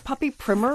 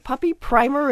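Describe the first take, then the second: First: Primer starts with a short 'ih' vowel. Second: Primer starts with a long 'eye' vowel. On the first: It is an old-fashioned basic training book. "that sort of old-fashioned little training book kind of thing" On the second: It prepares the dog for adult life. "like getting them ready, you know, priming them for their happy adult life"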